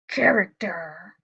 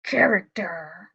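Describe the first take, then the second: First: It is said in a lion voice. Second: The same.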